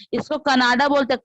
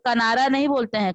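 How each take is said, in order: First: Canada said firmly and louder; stress on Canada. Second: नहीं pressed hard, falling; stress on नहीं. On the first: Teacher correcting a student, stressing Canada. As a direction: lean on Canada with a falling tune. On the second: Teacher says what the word is not, stressing नहीं. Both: Shown as a demonstration.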